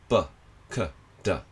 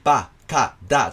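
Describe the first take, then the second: First: The vowels are short, quiet and barely voiced. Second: The vowels are open, full and clearly voiced. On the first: The speaker calls it right. "あんまり口を開けないで、母音が目立たないように母音を入れるのがコツです" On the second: The speaker calls it wrong. "こうはっきりば、か、だじゃなくて"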